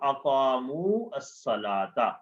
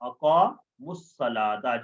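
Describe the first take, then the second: First: The two words are said as separate words. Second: The two words run together as one word.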